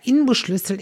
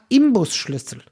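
First: An n sound comes before the b. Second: An m sound comes before the b. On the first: The speaker calls it right. "ist es nämlich ein N und kein M" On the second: The speaker calls it wrong. "Und jeder sagt Imbusschlüssel"

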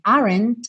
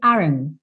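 First: The final t is clearly released. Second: The final t is not released.

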